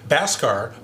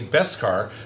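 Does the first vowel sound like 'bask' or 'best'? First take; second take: bask; best. First: The first vowel sounds like the 'a' in 'bask'. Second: The first vowel sounds like the 'e' in 'best'. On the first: The speaker calls it wrong. "I'm pronouncing it wrong" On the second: The speaker calls it right. "but it's actually Beskar"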